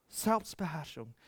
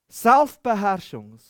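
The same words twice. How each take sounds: First: "Selbstbeherrschung" repeated much softer, almost to himself; hushed echo of "Selbstbeherrschung". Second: "Selbstbeherrschung" said loud and slow, each syllable leaned on; preacher's drawn-out "Selbstbeherrschung"; emphatic. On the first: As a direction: let "Selbstbeherrschung" fall quiet and low. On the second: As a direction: proclaim "Selbstbeherrschung" slowly and loudly. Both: Shown as a demonstration.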